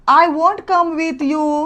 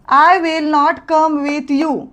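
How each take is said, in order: First: The words 'will not' merge into one word. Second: The words 'will not' are said in full.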